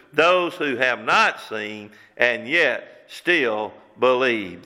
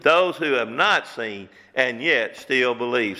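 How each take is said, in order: First: Stretched slow, landing on not; slow, weighty delivery. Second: Slow, stressing not; repeated with stress. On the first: Preacher slowly stressing who is most blessed. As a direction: draw each word out slowly. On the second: Preacher repeating the verse to drive it home. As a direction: lean on not a second time. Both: Shown as a demonstration.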